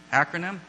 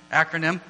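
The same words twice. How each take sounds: First: Acronym? with a rising, questioning tune; unsure question. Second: Said in the usual way. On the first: Shown as a demonstration. Teacher unsure of the term, asking the class, rising. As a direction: try the word Acronym? tentatively, as if checking it. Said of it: "acrostic, I guess?".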